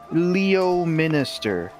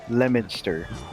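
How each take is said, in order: First: The name is read out in full, as spelled. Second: The name is said in a shortened, contracted form. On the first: Someone unfamiliar with the town reads it off the page. The speaker calls it wrong. "a stranger reading it be like" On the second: Locals say it the traditional English way. The speaker calls it right. "No, it's Leominster"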